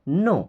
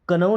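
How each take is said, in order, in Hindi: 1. यह शब्द n ध्वनि से शुरू होता है। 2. यह शब्द k ध्वनि से शुरू होता है। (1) "के और डब्ल्यू साइलेंट होता है" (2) "इसको कनो नहीं पढ़ते हैं"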